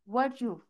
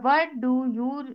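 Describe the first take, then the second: First: The words run together with the t swallowed. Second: Each word is said separately and fully. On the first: "but the fluent way is वर्चू" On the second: "व्हाट डू यू हम कहते हैं"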